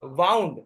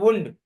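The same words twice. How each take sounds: First: Wound said like waund, rhymes with sound; wound as in wrapped. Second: Wound said woond, rhymes with moon; wound as injury. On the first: Teacher showing the wrapped sense: wound like waund. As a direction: say wound with the ow of round. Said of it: "wound यानी उसको लपेटा गया था". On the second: Teacher showing the injury sense: wound said woond. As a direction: say wound with a long oo. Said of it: "ये वुंड होता है". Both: Shown as a demonstration.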